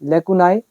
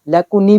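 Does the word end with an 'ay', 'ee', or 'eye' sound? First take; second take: eye; ee. First: The word ends with an 'eye' sound. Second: The word ends with an 'ee' sound. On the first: "यहाँ पे देखो आपके सामने लेकुनाई" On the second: "लेकुनी भी बोलते हैं इसको"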